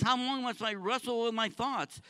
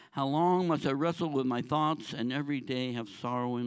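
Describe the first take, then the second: First: Anguished plea. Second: Said in the usual way. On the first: Acted. David voiced pleading with God, raised anguished cry. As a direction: ask God in pain, raised voice. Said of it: "he says".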